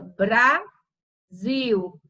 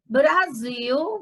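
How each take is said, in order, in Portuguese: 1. A palavra é dividida em sílabas separadas. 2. A palavra é dita de forma contínua, como uma unidade.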